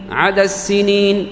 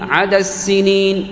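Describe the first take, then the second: First: The final D merges into a doubled S. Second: The final D merges into a doubled S.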